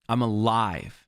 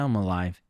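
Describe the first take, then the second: First: It is said forcefully, with conviction. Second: It is said flatly, without any conviction. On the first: The speaker truly feels and affirms being alive. The speaker calls it right. "say it with a power" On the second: The speaker is only going through the motions. The speaker calls it wrong. "not just saying, eh"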